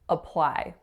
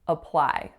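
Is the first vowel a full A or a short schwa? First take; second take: schwa; schwa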